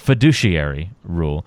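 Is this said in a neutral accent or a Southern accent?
neutral. It is said in a plain, neutral accent.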